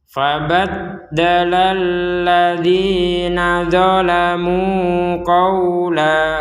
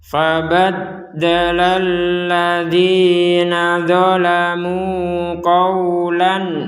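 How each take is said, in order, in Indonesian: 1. Kata terakhir berakhir tanpa bunyi n. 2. Kata terakhir berakhir dengan bunyi n yang jelas. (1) "kita contoh yang pertama, ya kita berhenti di qawla" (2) "contoh bacaan yang kedua, kata ini dilanjutkan"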